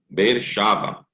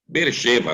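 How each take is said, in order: First: The vowel after 'sh' is pronounced 'a'. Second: The vowel after 'sh' is pronounced 'e'. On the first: The word stands at the end of a verse or at a pause. "Como está no final do versículo, ou no, na questão da pausa" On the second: This is the ordinary name of the city. "Beersheva é o nome da cidade"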